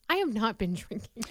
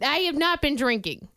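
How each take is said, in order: First: The voice is noticeably lowered. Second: The voice is at its normal, higher level. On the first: "Let me lower my voice because that sounds guilty" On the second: "That also right there sounded guilty"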